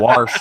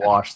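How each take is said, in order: First: The word has an r sound, like warsh. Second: The word has no r sound, plain wash. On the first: This is how people in the local region say it. "We we say wash" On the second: This is the usual way elsewhere. "instead of wash"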